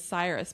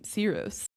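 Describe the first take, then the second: First: The name is said the American way. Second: The name is said the Persian way. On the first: "the American pronunciation is Cyrus" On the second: "his Persian name"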